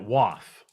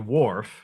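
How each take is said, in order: First: The word is said with the r dropped. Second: The word is said with the r sounded.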